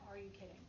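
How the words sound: It is said in a flat, monotone voice.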